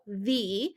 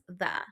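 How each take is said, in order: First: The vowel is a long 'ee' sound. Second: The vowel is a short 'uh' sound. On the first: "superhero, E, that says E. So the" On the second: "that can also be pronounced as the"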